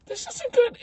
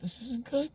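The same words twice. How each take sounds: First: Very high squeaky worry; mock alarm. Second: Hushed, high-pitched worry; nervous aside. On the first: Visitor spotting clown at mirror, rising mock alarm. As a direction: let the pitch climb in dread. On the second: Retold or imitated. Visitor spotting clown at mirror, hushed nervousness. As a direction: say it small and soft.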